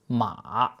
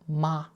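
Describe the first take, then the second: First: The pitch dips down, then rises again. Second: The pitch stays high and level. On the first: It means horse. "The note dips down and then comes back up" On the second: It means mother. "This is a high, steady note"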